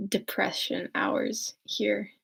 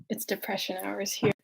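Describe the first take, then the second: First: Slow, stretched-out delivery; slowly drawn-out gloomy line. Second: Said in the usual way. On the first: Shown as a demonstration. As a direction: let each word drag, slowly.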